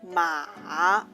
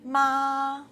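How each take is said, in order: First: The pitch dips low and then rises. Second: The pitch stays high and level. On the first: "Low rising tongue" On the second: "High-level tongue, the first tongue"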